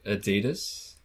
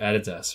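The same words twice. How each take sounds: First: It is said with the American pronunciation. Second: It is said with the Australian pronunciation. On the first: "Americans pronounce it Adidas" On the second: "every single Australian just calls it Adidas"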